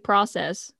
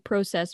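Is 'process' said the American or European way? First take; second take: American; European. First: It is pronounced the American way. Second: It is pronounced the European way. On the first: "Americans say process" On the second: "I love the way Europeans say that"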